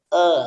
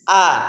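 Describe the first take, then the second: First: The vowel is restrained, with the mouth held back. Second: The vowel is full, with the mouth wide open. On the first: The speaker calls it wrong. "kayak ditahan" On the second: The speaker calls it right. "kita harus terbuka"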